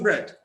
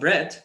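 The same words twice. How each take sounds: First: The voice falls on the word. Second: The voice rises on the word. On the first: It is mentioned for the first time. "bread in the first question was with a falling tone" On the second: It was already mentioned. "we use the rising tone to say bread"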